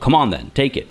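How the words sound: It is said in a harsh, aggressive tone. The speaker is challenging the listener. "which is a bit more aggressive"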